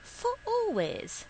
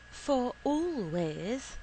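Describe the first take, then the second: First: Very high, pleading question that falls away; high-voiced woman pressing for an answer; insistent repeated question. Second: Slow question, rising at the end; high, lingering female-character question; hopeful question. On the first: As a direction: start far up high, then drop. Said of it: "she asked again". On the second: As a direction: stretch it out and lift hopefully. She asks him to stay. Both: A narrator's reading.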